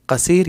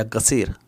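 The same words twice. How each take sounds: First: कसीर begun with a 'k' or 'q' sound; k-sound variant. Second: गसीर begun with a voiced 'g'; g-sound variant. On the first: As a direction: start कसीर on 'k', not 'g'. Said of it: "कुछ लोग क". (कसीर, शुरू में 'क' की आवाज़) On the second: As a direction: start गसीर on 'g' in place of 'k'. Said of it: "ग कुछ लोग बोलते हैं". (गसीर, 'क' की जगह 'ग' बोलकर) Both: Shown as a demonstration.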